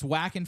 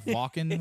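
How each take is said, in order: First: The name is said with an American pronunciation. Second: The name is said with a German pronunciation. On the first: "it's Wacken for Americans" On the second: "which is how the Germans would pronounce it"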